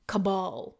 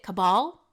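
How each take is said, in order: First: Cabal stressed on the second syllable, falling; ca-BAL, second syllable. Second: Cabal stressed on the first syllable, rising; CA-bal, first syllable. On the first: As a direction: say Cabal as ca-BAHL. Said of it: "I'll start saying it". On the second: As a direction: say Cabal as CAB-al, questioning. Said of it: "How else would you say it?". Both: Shown as a demonstration.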